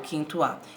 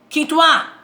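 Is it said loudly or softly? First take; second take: softly; loudly. First: It is said softly and weakly. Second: It is said loudly and forcefully. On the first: "ou se ele é fraco" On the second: "se ele é forte"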